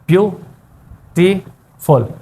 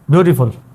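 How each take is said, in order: First: The word is broken into three separate syllables. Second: The word is said smoothly as one unit.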